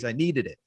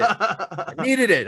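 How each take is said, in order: First: Said in the usual way. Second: Slow, high, laughing through it. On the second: Real, not acted. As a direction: stretch it out while laughing. Repeats with laughter.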